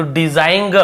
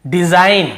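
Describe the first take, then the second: First: डिजाइन with a "guh" tacked on the end; G wrongly sounded. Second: Said in the usual way. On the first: Shown as a demonstration. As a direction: add an audible G to डिजाइन. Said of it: "ऐसे ग को नहीं पढ़ रहे". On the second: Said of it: "हम इसे क्या पढ़ रहे हैं".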